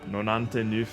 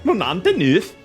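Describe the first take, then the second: First: It is said without a put-on Swedish accent. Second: It is said with a put-on Swedish accent.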